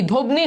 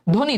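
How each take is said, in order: First: "ধ্বনি" as dhob-ni, with the silent ব sounded; spelling pronunciation. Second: Said in the usual way. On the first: Shown as a demonstration. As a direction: put an audible b before the n in "ধ্বনি". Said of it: "ধ্বনি হওয়ার কথা". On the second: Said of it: "বয়ের কিন্তু কোনো উচ্চারণ নাই".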